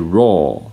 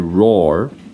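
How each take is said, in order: First: It is spoken in a British accent. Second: It is spoken in an American accent. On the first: "British people would say raw" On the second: "Americans would say roar"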